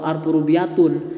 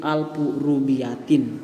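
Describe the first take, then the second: First: The last word ends in the vowel u plus n. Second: The last word ends in the vowel i plus n. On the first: The speaker calls it wrong. "atau alfu rubiatun" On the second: The speaker calls it right. "tapi alfu rubiatin"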